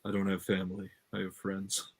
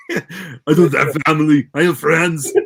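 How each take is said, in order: First: Soft, slightly lowered movie-line delivery; deep voice. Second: Put-on loud, strained action-star shout with an accent; Arnold. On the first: Acted. Co-host flips the family line on request, deep voice. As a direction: say it low and quiet, like a brooding tough guy. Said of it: "say it in a deep voice". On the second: Co-host parodies the family line as Arnold, loud impression. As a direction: belt it out as a hammed-up impression. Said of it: "the Arnold versions".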